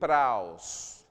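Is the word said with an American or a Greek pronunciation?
Greek. It is said with a Greek pronunciation. "We say in Greek"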